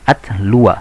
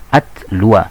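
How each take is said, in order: First: The word ends with an 'a' vowel. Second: The same.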